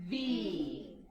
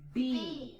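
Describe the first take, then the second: First: The sound starts with teeth on the lower lip. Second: The sound starts with both lips pressed together. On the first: The speaker calls it right. "We're biting our lip for this one" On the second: The speaker calls it wrong. "And it's not B. We're not pushing our lips out together"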